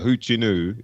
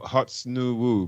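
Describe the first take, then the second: First: The name is said in its natural spoken form. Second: The name is sounded out following its spelling. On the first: "is what how you'd say it" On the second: "that's how it's spelled"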